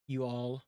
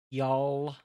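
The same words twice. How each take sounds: First: Said in the usual way. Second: "y'all" run together as one long syllable; Southern contraction. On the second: Shown as a demonstration. Streamer showing chat Southern usage, "y'all" as one drawn-out word. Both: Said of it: "y'all instead of you all".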